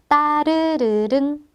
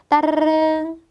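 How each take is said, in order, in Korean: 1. 이 단어는 느리게 발음돼요. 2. 이 단어는 아주 빠르게 발음돼요.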